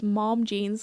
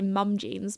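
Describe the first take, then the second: First: It is said with an American 'mom' vowel. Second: It is said with a British 'mum' vowel. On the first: "everyone goes mom jeans because like the mom rather than the mum" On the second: "I'd say mum jeans because we're British"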